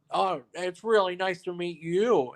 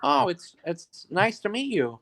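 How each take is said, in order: First: Lightly voiced polite greeting, higher, slow; a hint of the actor being extra nice to someone else; French Stewart. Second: Lightly voiced friendly greeting, higher, slow; a hint of a polite actor meeting a fan; French Stewart. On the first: Actor greets another guest to make a point, lightly mimicked and slow. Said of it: "He goes". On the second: Actor greets the storyteller, lightly mimicked and slow. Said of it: "he's like".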